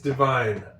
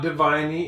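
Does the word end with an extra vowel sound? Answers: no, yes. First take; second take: no; yes. First: The word ends on the N with no extra vowel. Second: The final silent E is voiced as an extra vowel. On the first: The speaker calls it right. "it's divine" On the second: The speaker calls it wrong. "It's not diviney"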